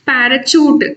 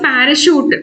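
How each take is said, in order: First: The last syllable begins with a ch sound. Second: The last syllable begins with an sh sound. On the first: The speaker calls it wrong. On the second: The speaker calls it right.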